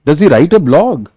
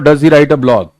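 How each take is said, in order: First: It is said with a questioning tune. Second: It is said with a flat statement tune. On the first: The speaker calls it right. "जब interrogative है" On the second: The speaker calls it wrong. "तो ऐसे तो नहीं बोलोगे"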